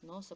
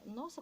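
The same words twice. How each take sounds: First: It is said with a frightened, fearful tone. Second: It is said with an astonished, surprised tone. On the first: The speaker is afraid of them. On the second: The speaker did not expect it.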